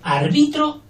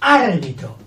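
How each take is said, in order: First: The stress is on the second syllable. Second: The stress is on the first syllable. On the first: It means I referee. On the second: It names the referee.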